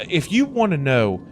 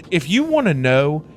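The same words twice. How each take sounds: The two takes are said the same way.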